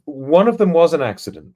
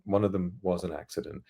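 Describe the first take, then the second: First: One of them was an ACCIDENT, raised and louder for the joke; first take, said loud and emphatic; stress on accident. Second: Quiet aside. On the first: Telling the school story, loud emphatic take. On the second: Repeating the school joke, soft deadpan aside. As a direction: mutter it again as a wry aside. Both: Shown as a demonstration.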